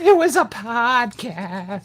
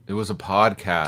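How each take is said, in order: First: The voice is made to sound more boyish. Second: The voice sounds like an ordinary adult voice.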